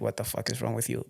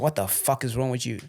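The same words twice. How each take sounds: First: The tone is soft and gentle. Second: The tone is harsh and aggressive. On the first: "I said" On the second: "Sorry, sorry, my tone, my tone"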